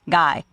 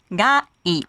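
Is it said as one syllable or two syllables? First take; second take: one syllable; two syllables. First: The two vowels merge into one syllable. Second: The two vowels are said as separate syllables. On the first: The speaker calls it wrong. "It's not gai" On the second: The speaker calls it right. "but ga i"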